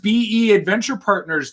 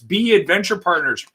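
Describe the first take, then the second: First: BE is spelled out as two separate letters. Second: BE is said as the single word 'be'. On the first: The speaker calls it wrong. "You don't say B E Adventure Partners" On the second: The speaker calls it right. "it's B Adventure Partners"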